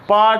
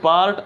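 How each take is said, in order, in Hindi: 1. "r" ध्वनि silent है। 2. "r" ध्वनि बोली जाती है। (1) "आर इज साइलेंट" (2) "ना कि पार्ट"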